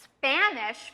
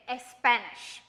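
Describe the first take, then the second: First: Spanish started straight on a hissed S, no vowel before; clean S start. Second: Espanish said with an added eh before the S; wrong leading e. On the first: Teacher giving the correct Spanish with a clean S start. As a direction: begin Spanish on the S itself. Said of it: "not the correct way". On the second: Teacher showing the mistake with an eh before Espanish. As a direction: put a short eh sound in front of Espanish. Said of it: "you might say Espanish". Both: Shown as a demonstration.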